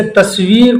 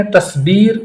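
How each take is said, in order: First: Said in the usual way. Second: تصبیر said as tasbeer with a b; تصبیر as tasbeer, Calcutta Urdu; Kolkata Urdu v to b. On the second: Shown as a demonstration. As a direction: swap the v for b in تصبیر. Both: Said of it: "تصویر کو بولتے ہیں تصبیر".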